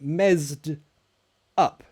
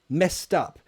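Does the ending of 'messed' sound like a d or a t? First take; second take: d; t. First: The ending of 'messed' has a d sound. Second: The ending is a t, linked into 'up'. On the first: The speaker calls it wrong. "it's not mezzed up" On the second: The speaker calls it right. "It connects, the ed is a t sound"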